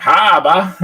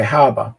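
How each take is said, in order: First: Mimicking an exaggerated Australian accent, higher and louder; mock the Aussie "Harbour" back as a question; hammed-up Australian accent on "Harbour". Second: Said in the usual way. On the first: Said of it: "exaggerate the accent". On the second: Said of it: "I just say harbour".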